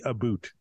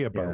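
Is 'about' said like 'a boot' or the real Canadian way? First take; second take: a boot; real Canadian. First: It is said like the stereotyped 'a boot'. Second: It is said with real Canadian pronunciation.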